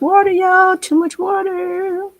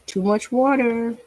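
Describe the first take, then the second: First: High, slow dismayed cry of too much water; drawn-out alarmed exclamation at the paint; surprised exclaim. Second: Said in the usual way. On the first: Real, not acted. Painter to viewers, startled by runny paint, high slow exclaim.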